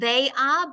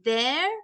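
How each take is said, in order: First: It is said as two separate full words. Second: It is said as one short contracted word. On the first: The speaker calls it wrong. "It's not they are" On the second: The speaker calls it right. "but they're"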